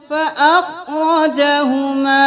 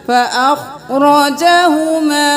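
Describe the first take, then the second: Both takes have the same delivery.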